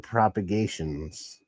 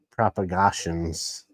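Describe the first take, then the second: First: Said in the usual way. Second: "Propagations" slowly, with AH in place of AY: prop-a-GAH-shuns; playful mispronunciation. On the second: Shown as a demonstration. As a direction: stretch "Propagations" out with a broad "gah" third syllable. Repeats name with playful altered vowel.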